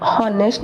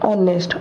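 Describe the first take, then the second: First: हॉनेस्ट with a spoken h; हॉनेस्ट with h, the wrong way; wrong h sound. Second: ऑनेस्ट starting on the O vowel; ऑनेस्ट with silent h. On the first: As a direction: say हॉनेस्ट pronouncing the h. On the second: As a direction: say ऑनेस्ट with no h at all. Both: Shown as a demonstration. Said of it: "हॉनेस्ट नहीं बोलते हैं".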